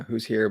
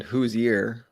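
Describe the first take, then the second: First: Said in the usual way. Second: "Whose ear?" said as "who's-yer", H turned to Y; Y sound for the H. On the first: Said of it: "but with a Y instead of an H". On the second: Shown as a demonstration. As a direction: glide into "ear" with a Y, like "yeer". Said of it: "with a Y instead of an H".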